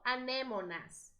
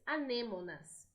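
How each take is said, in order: First: The word is pronounced with Spanish sounds. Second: The word is pronounced with Portuguese sounds. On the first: "Em espanhol" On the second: "Em português"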